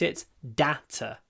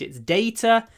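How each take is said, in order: First: It is said with an American English accent. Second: It is said with a British English accent. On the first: "In American English" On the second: "So in British English"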